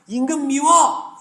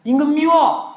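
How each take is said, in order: First: Put-on high, slow childish pout; childish whine. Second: Put-on high, sulky childish pout; childish whine. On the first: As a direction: whine it like a sulking kid. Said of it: "이렇게 얘기하는 거예요". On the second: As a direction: whine it like a kid. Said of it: "이렇게 얘기하는 거라고요". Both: (토라진 아이처럼 징징대며)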